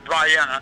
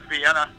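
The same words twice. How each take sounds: First: It is said with a different local pronunciation. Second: It is said like the usual English city name. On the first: It names the town in southern Illinois. "They pronounce it Vienna" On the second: It names the capital of Austria. "It looks like Vienna, Austria"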